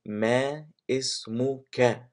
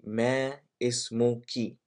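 First: اسمك ending in "ka", short open vowel; masculine ke ending. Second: اسمك ending in "ki", like English key; feminine ki ending. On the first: Teacher showing how to ask a man, اسمك ending "ka". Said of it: "So for a man, we say". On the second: Teacher showing how to ask a woman, اسمك ending "ki". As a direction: say اسمك with a final "ee". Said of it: "For a woman, I say". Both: Shown as a demonstration.

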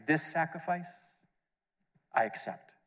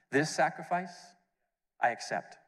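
First: Voice of God. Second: A lightly voiced, solemn Father; voice of God. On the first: Retold or imitated. Voice from heaven at the baptism, solemn. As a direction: quote the Father, solemn and unhurried. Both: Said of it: "the voice came down saying".

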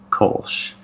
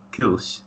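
First: "Kolsch" said the American way, with a long O; American pronunciation. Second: "Kilsch" said with a German-style fronted vowel; German pronunciation. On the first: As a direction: say "Kolsch" with an English "coal" vowel. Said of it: "the American pronunciation would be". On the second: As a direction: attempt "Kilsch" as a German would, not with a long O. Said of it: "if you were German". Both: Shown as a demonstration.

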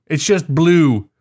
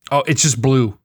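First: Slow, higher, stretched "It's just blue"; emphatic repeat. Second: Said in the usual way. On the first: Real, not acted. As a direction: lean on "blue" in disbelief.

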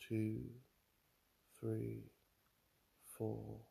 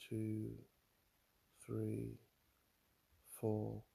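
Both takes have the same delivery.

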